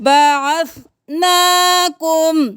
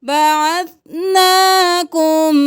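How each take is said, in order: Both takes have the same delivery.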